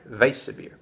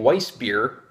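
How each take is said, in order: First: The word begins with a V sound. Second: The word begins with a W sound. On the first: The speaker calls it right. "German. W pronounced V" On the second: The speaker calls it wrong. "I'm pronouncing the W as as a W"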